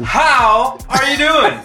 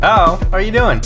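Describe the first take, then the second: First: It is said warmly, with real enthusiasm. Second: It is said flatly, without any enthusiasm.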